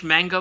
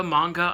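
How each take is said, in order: First: "Manga" with a flat a, as in "man"; alternate pronunciation. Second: "manga" with a broad ah in the first syllable; alternate pronunciation. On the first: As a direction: say "Manga" with the first syllable like "hang". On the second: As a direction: say "manga" as "MAHN-guh". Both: Shown as a demonstration. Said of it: "don't even know how to pronounce it".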